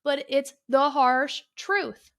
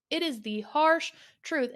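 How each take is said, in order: First: Truth slow and louder, drawn out; stress on truth. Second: Harsh punched, slow and firm; stress on harsh. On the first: Telling listeners a hard truth, stressing truth. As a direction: lean hard on truth, slowly. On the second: Repeating the hard truth to listeners, stressing harsh. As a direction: hit the word harsh deliberately. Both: Real, not acted. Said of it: "it sounds harsh".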